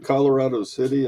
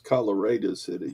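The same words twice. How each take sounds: First: The name is said the usual, non-local way. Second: The name is said the way locals say it. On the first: "There's a Colorado City in Texas" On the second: "but it's Colorado City. You you better get it right"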